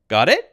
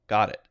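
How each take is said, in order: First: The voice rises at the end. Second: The voice falls at the end. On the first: It asks whether the listener understands. "the intonation of my voice must go "你" like that" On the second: It answers that the listener understands. "Intonation, falling"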